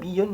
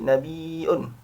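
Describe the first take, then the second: First: It is said with a plain y sound. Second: It is said with a glottal stop and long vowel. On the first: "yang aslinya" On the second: "mengganti ya dengan hamzah dan menjadi mat wajib"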